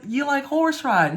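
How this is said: It sounds excited and interested. The listener cares about the other person's interests. The speaker calls it right.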